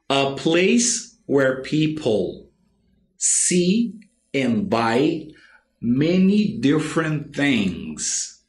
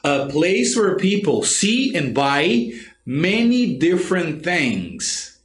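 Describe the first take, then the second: First: The sentence is said slowly with pauses. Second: The sentence is said at normal speed.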